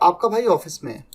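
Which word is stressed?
none. It is said plainly with no special emphasis. "एक तरीका तो ये बोलने का"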